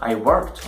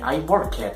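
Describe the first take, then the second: First: The ending is joined without an extra syllable. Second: The ending is said as an extra syllable. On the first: The speaker calls it right. "they have to say I worked" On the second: The speaker calls it wrong. "this is incorrect"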